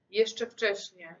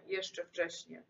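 First: Slow, drawn-out plea. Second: Softer, dying-away repeat; fading echo. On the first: Girl begging her dead lover to stay, slow. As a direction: hold her lover back, slowly. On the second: Girl repeating her plea to the ghost, fading. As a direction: let it fade out like a sigh. Echo fades to near nothing. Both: Acted.

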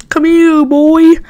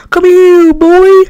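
First: Coaxing call to a dog; calling a pet. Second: High, louder coaxing call; louder pet call. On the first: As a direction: call him over like a dog. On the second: Calling again, louder, put-on. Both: Acted.

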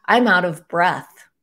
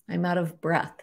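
First: Slow, louder, gasping complaint; out of breath. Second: Said in the usual way. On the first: Pretend. Speaker acting out someone short of breath. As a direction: push the words out as if winded.

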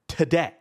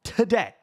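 First: Said in the usual way. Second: "Today" repeated higher and pushed hard; stressed repeat. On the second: Retold or imitated. Insisting to the agent she must fly today, stressed repeat.

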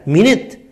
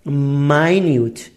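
First: مینت as "MIN-it", short vowels; first pronunciation demo. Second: ماینیوت slowly as "mai-NYOOT"; second pronunciation demo. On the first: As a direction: say مینت to rhyme with "in it". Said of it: "کلمهٔ اول". (تلفظ «مینت» با دو واکهٔ کوتاه) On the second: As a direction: stretch ماینیوت with "ai", then long "yoo". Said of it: "ولی کلمهٔ دوم چیه؟". (تلفظ آهستهٔ «ماینیوت» با «آی» و «یو») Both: Shown as a demonstration.

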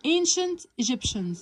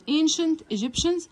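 First: "Ancient Egyptians" said very slowly, falling at the end; slow careful model. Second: "Ancient Egyptians" slowly, rising at the end; slow rising model. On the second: Teacher repeats the word for students, slow and rising. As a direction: ask it back slowly, "Ancient Egyptians" going up. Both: Shown as a demonstration.

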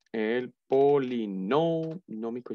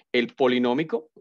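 First: El polinómico drawn out slowly, leaning on the accented O in "polinómico"; stress on the accented O. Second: Said in the usual way. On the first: Shown as a demonstration. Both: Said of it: "lleva tilde en la O".

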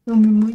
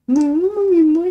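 First: Said in the usual way. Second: Much higher squeaky pretend voice; high cat voice. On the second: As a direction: speak for the cat, whiny. Mock reply voiced for cat.

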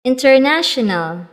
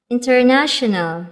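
The two takes are said the same way.

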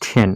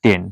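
First: টেন said then, with a puff on the t; টেন as th-en, breathy t; aspirated th. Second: টেন with a plain t, no puff; the former way: টেন with a crisp t; টেন, unaspirated t; old unaspirated t. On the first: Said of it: "সঠিক উচ্চারণ". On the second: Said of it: "আগে বলতাম". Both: Shown as a demonstration.

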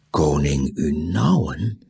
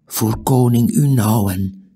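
First: "Koning Unauwen" slow, with rising end; questioning echo. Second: "koning Unauwen" higher, as a statement; firm statement. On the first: Tiuri echoes the name, questioning. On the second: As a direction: announce "koning Unauwen" with weight. Stranger names the king. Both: A narrator's reading.

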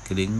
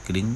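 No difference in how they are said.

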